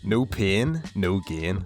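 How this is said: It is said in a Northern Irish accent.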